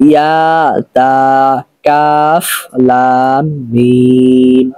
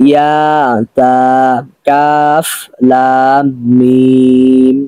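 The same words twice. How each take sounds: No difference in how they are said.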